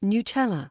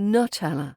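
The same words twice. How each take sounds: First: The first vowel is a full u sound. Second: The first vowel is reduced to a schwa. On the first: The speaker calls it right. "but it's Nutella" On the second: The speaker calls it wrong. "I've been turning that U into a schwa"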